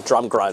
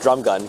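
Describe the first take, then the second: First: "drum grun" with an extra R in the second word; tongue-tripped "drum grun", said low; mispronounced drum gun. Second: Said in the usual way. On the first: Shown as a demonstration. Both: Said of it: "I mispronounced drum gun".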